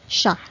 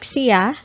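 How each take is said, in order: First: The word is said in a casual, shortened form. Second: The word is said in a fuller, careful form. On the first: "normally in casual conversations, we pronounce this as" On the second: "Or you can also pronounce this like"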